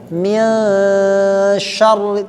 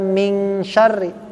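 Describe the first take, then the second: First: The n is a hidden, drawn-out nasal hum. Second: The n is said as a clear ng. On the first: The speaker calls it right. "ikhfa itu kan menyamarkan, menyembunyikan" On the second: The speaker calls it wrong. "tidak sekedar ming syarri"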